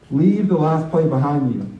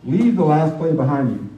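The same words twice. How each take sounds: The two takes are said the same way.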